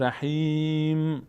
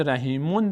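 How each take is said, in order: First: رحیم with long held "ī", closing on bare "m"; final mim sakin. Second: رحیمون with a full "-mon" ending; tanween "on" sounded. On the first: Teacher shows stopping at verse end, رحیم slowly with vowelless "m". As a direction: stretch رحیم and hum shut on "m", no vowel. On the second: Teacher names the form not wanted when stopping, رحیمون with tanween "-on". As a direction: pronounce the final "on" of رحیمون. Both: Shown as a demonstration.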